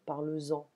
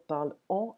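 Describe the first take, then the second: First: The words are linked with a z sound. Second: The words are said with no linking z sound. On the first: The speaker calls it right. "on garde le S parce qu'on doit la prononcer" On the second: The speaker calls it wrong. "On ne va pas dire"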